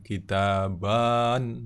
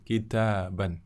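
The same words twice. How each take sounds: First: The final vowel is drawn out long. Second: The final vowel is kept short. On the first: The speaker calls it wrong. "Bukan kitaban, nah bukan gitu ya" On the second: The speaker calls it right. "Alifnya tidak diucap"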